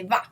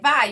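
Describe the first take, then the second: First: The word ends with a plain 'a' vowel. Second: The word ends with an 'ai' diphthong. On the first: "you eliminated the vowel" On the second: "instead of saying vai"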